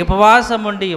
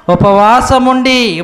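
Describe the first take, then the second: First: Said in the usual way. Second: ఉపవాసం ఉండి drawn out slowly and said louder, weight on ఉండి; emphatic repeat. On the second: Shown as a demonstration. Preacher insisting to the church that they fasted, emphatic. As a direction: hammer home ఉపవాసం ఉండి, slow and loud.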